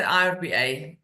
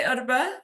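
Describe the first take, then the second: First: I R B A said letter by letter; name each of the four letters in I R B A; spelt-out initials. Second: Irba pronounced as one two-syllable word. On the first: Guest shows host how others say the name, I R B A letter by letter. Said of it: "some people say I R B A". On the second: Guest tells host how she says the regulator's name, irba as one word. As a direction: say irba as a single word, not letters. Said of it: "I say irba". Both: Shown as a demonstration.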